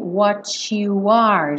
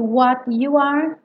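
First: The T and 'you' merge into a ch sound. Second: The T and 'you' stay separate sounds.

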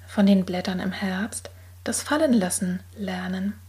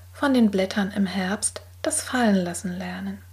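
The two takes are said the same way.

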